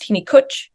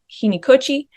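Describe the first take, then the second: First: The final vowel is devoiced and barely heard. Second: The final vowel is clearly voiced.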